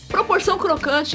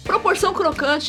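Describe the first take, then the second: First: It is said in a serious newscaster voice. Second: It is said in a serious newscaster voice.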